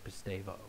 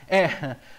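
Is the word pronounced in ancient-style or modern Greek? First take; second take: modern; ancient. First: The word is said the modern Greek way. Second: The word is said in the old Greek way. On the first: "The Greeks today would say it differently" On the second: "that is the old way the Greeks would say it"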